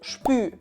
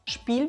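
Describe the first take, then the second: First: Dialect vowel like ü, no final L. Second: Standard vowel with a clear final L.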